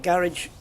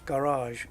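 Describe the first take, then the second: First: It is said in an everyday British way. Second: It is said in a posh British way. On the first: "I say garage because it's British" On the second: "If you're if you're posh British"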